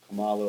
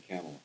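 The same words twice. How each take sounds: First: Kamala said as kuh-MAH-luh; stressed second syllable. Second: Kamala said as KAM-uh-luh; stressed first syllable. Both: Shown as a demonstration. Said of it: "I don't know if it's".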